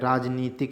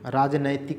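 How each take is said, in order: First: The second syllable has an 'ee' vowel. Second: The second syllable has an 'ai' vowel. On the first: The speaker calls it right. "राजनीतिक शुद्ध है" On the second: The speaker calls it wrong. "देखो ये आप कितनी बार गलत पढ़ते हो"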